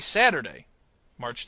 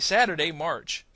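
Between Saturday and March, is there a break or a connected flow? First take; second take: break; connected. First: There is a clear break after Saturday. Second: Saturday runs straight on into March. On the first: The speaker calls it wrong. "Notice I don't say" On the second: The speaker calls it right. "I kind of jump into March"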